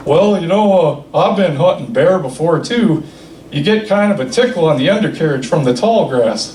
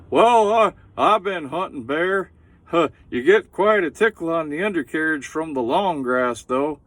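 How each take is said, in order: First: A hint of Hank Hill, deadpan; Hank Hill impression. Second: Hank Hill voice done up big; Hank Hill impression. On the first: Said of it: "sounds exactly like Hank Hill". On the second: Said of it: "he says".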